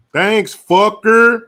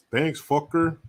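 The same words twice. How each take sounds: First: Loud, high, drawn-out holler; loud mock thanks. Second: Said in the usual way. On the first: Streamer thanking a viewer, loud drawn-out holler. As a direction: stretch it out and shout it.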